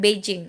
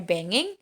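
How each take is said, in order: First: The middle consonant is a soft j sound. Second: The middle consonant is a hard g sound. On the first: The speaker calls it wrong. "harusnya kan Beijing, eh, padahal enggak" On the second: The speaker calls it right. "dia tetap dibaca banging"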